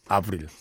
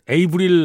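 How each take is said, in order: First: The name starts with a French 'ah' sound. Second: The name starts with an English 'ay' sound. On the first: This is how the name is said where she comes from. The speaker calls it right. "이 불어권이어가지고 이름을 아브릴 이렇게 부른다는데요" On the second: This is how the name used to be said. The speaker calls it wrong. "옛날에 그 [name] 이렇게 불렀는데"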